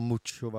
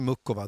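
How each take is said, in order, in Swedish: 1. Den mittersta konsonanten är ett ch-ljud. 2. Den mittersta konsonanten är ett hårt k-ljud. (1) "Muchova är det korrekta" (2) "jag säger ju fortfarande Mukova"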